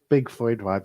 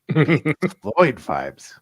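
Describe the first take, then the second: First: It is said in a plain, ordinary voice. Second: It is said in a put-on juicy voice. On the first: "Say it again, honey" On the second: "Now say it in a way that's juicy"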